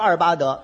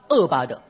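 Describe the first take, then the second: First: The first syllable is a clear 'er' sound. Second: The first syllable becomes a plain 'e' sound. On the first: The speaker calls it right. "不唱二八德" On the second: The speaker calls it wrong. "嘴里有毛病，咬舌、见舌、大舌头"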